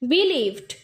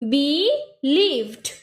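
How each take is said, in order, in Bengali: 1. শব্দটি এক টানে সাবলীলভাবে বলা হয়। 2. শব্দটি আলাদা আলাদা সিলেবলে ভাঙা হয়।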